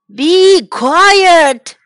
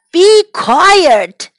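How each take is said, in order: First: Loud and higher, angry shout at the animals. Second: Loud and higher, cutting the noise; grumpy order. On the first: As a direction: yell it to silence the whole farm. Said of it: "shouted old MacDonald". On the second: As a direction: snap at the noisy animals. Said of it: "said old MacDonald". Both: Acted.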